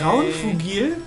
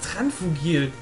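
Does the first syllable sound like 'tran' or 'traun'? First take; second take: traun; tran. First: The first syllable has the vowel 'au'. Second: The first syllable has a plain 'a' vowel. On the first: The speaker calls it right. "Das heißt Traunfugil?" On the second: The speaker calls it wrong. "Ich dachte immer, das heißt Tranfugil"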